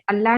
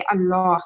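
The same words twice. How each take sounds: First: Light L in अल्लाह; thin Allah, not wanted. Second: Full dark L in अल्लाह; thick, heavy Allah. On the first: Teacher showing what not to read, thin-L अल्लाह. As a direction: say अल्लाह with a thin L and flat front A. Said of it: "नहीं पढ़ेंगे". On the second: Teacher showing the proper reading, thick-L अल्लाह. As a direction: say अल्लाह with heavy L and rounded back vowel, like "Allaw". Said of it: "ऐसे पढ़ेंगे". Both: Shown as a demonstration.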